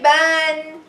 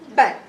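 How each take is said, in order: First: The vowel is drawn out long. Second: The vowel is short and quick. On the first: The speaker calls it wrong. "Never say ban. No, no long vowels here" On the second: The speaker calls it right. "Just treat it like a short vowel. It's very fast"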